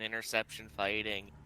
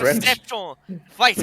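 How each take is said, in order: First: It is said flatly, with little energy. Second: It is said with passion and high energy.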